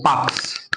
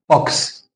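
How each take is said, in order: First: باكس as "baks", the slow correction; corrected vowel in باكس. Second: Rounded, short O in the middle of بوكس; بوكس as "boks", the mistaken reading; wrong vowel in بوكس. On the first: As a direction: say باكس with an open "ah", like "baaks". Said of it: "اسمه باكس". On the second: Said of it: "هنا بتقول ما اسموش". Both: Shown as a demonstration.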